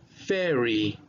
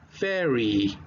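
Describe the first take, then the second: Both takes have the same delivery.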